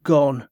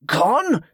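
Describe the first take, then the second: First: Matter-of-fact, unmoved statement; blank smuggler. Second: High, incredulous demand; sharply pitched-up disbelief. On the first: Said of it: "the same blank expression". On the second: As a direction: throw it back as an outraged question. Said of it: "Ambrose demanded". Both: A narrator's reading.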